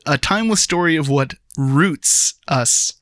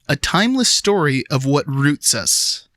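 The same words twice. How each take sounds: First: It is read with one word strongly emphasized. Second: It is read with no special word emphasis.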